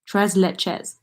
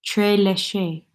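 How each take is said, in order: First: "Tres leches" as trez LETCH-ez; settled pronunciation. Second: "Tres leche" as trih-LEE-shee, unsure guess; guessing pronunciation. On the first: Settling on the dessert name, saying trez LETCH-ez. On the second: Testing a guess at the dessert name, saying trih-LEE-shee. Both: Shown as a demonstration. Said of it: "I wonder how you pronounce that".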